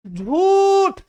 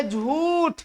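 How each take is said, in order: First: झूठ with झू swelling high and long; stress on झू. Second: झूठ with a lightly lengthened झू; first stress example. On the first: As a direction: push hard on the झू in झूठ. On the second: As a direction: give झू in झूठ a little extra length. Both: Shown as a demonstration. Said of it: "झू पर भार दिए".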